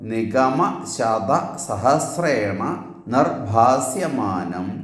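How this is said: Short pauses separate the individual words.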